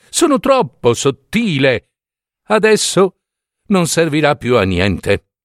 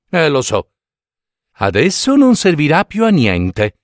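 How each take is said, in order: First: Higher, lightly voiced vain needle; self-pitying needle. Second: Mildly mocking echo of the needle; fingers mock needle. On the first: Broken needle laments to the fingers, self-pitying. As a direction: sigh it out as a fragile snob. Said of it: "disse l'ago". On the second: Fingers mockingly echo the broken needle. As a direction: lightly parrot its lament, wryly. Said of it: "pensarono le dita". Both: A narrator's reading.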